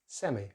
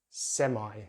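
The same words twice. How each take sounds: First: The word has no 'eye' diphthong vowel. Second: The word uses an 'eye' diphthong vowel. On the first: "in British English it's semi" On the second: "They use the I diphthong"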